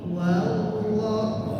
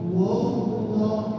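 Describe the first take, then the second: First: The 'wa' sound is plain and ordinary. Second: The 'wa' sound is thick and heavy. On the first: The speaker calls it right. "tapi wallah, wa biasa" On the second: The speaker calls it wrong. "Jangan dibaca wallah"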